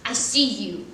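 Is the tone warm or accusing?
accusing. It sounds knowing and accusing.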